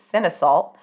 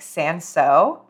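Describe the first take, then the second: First: It is said as spelled, like 'sin-salt'. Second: It is said the French way, like 'san-so'.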